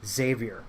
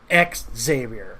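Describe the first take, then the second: First: The X sound at the start is not emphasized. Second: The X sound at the start is emphasized. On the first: The speaker calls it right. "It's Xavier" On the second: The speaker calls it wrong. "They keep trying to emphasize the X"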